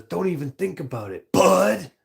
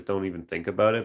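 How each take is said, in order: First: Higher, with a loud lifted bud; weird inflection. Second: Said in the usual way. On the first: Retold or imitated. Streamer imitating the odd movie line, bud popped high. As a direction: mimic the strange movie reading. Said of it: "Such a weird inflection". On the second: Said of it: "I don't remember if he says".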